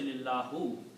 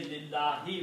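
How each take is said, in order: First: The word ends in an 'oo' vowel. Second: The word ends in an 'ee' vowel. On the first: The speaker calls it wrong. "we don't say lillahu" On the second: The speaker calls it right. "We say lillahi"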